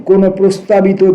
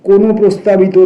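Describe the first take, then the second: Both takes have the same delivery.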